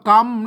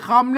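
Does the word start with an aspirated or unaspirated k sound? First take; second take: unaspirated; aspirated. First: It starts with an unaspirated k sound. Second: It starts with an aspirated k sound. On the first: The speaker calls it right. "อ่านว่ากำนะครับ" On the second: The speaker calls it wrong. "ไม่ใช่คำ"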